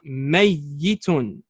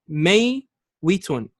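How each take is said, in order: First: The middle consonant is a doubled y sound. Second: The middle consonant is a w sound. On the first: This is the final merged form. "Now we perform idgham" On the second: This is the original underlying form. "The origin of this word is may witun, kasra on the wow"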